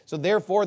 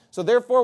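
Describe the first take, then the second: First: Said in the usual way. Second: "So therefore" punched higher and louder; preacher hammering "So therefore"; emphatic so therefore. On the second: Real, not acted. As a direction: land hard on "therefore" to drive the point home. Repeated connective, second one emphatic.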